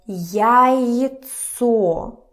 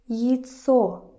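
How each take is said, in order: First: The first vowel is a full, open 'ya'. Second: The first vowel is reduced toward 'yi'. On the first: The speaker calls it wrong. "It's not pronounced as яйцо" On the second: The speaker calls it right. "Kind of like и again"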